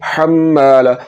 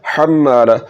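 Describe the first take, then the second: Both takes have the same delivery.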